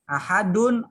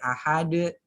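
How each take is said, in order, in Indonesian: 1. Kata ini berakhir dengan akhiran -un lengkap. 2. Kata ini berhenti pada konsonan terakhir. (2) "karena dia wakaf jadi ahad"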